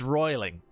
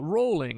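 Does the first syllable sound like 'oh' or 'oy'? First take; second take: oy; oh. First: The first vowel sounds like 'oy'. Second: The first vowel sounds like 'oh'. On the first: The speaker calls it right. "It's it's roiling" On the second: The speaker calls it wrong. "I've gotten so used to hearing everybody else in their videos go rolling"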